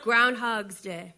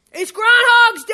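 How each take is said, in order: First: Said in the usual way. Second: Higher, louder outburst; shouted correction. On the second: Acted. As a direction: yell it out, indignant.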